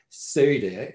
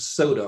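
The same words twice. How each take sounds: First: The word is said in a Philadelphia accent. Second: The word is said in a general accent.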